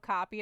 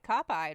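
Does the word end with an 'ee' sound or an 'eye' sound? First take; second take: ee; eye. First: The ending sounds like 'eed', as in 'seed'. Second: The ending sounds like 'eyed', as in 'side'. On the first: The speaker calls it right. "It says copied" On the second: The speaker calls it wrong. "I'm also reading these words as if it's "eyed" at the end"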